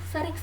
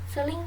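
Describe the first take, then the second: Both takes have the same delivery.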